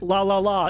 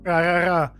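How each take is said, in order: First: The syllables start with a clear L sound. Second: The syllables start with an R-like sound. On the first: "Japanese people can't say like la la la" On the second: "It'll sound more like like ra ra ra"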